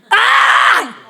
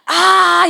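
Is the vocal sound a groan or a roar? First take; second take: roar; groan. First: A loud forceful roar on the vowel. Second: A low moaning groan on the vowel. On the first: The speaker calls it right. "제가 한번 해보겠습니다. 로링을" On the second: The speaker calls it wrong. "이거는 그로닝이에요"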